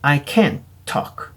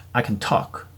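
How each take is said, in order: First: "can't" stressed, the t dropped. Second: "can" light and quick, stress on talk; unstressed can. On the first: Teacher contrasting negative for students, stressing can't. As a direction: lean on "can't", t barely there. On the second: Teacher contrasting positive for students, can unstressed. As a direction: let "can" slip by lightly. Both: Shown as a demonstration. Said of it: "액센트가 달라지죠".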